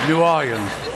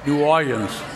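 The two takes are said the same way.

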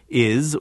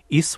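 First: The word ends with a z sound. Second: The word ends with an s sound. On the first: "we have it quite frequently in words such as is" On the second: "which they pronounce routinely as an S"

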